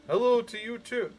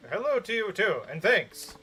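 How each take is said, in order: First: Chirpy radio host reply; lightly voiced radio DJ; announcer voice. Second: Said in the usual way. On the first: Shown as a demonstration. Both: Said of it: "announcer voice".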